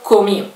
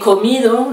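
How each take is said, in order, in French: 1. Le D final n'est pas prononcé. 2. Le D final est bien prononcé.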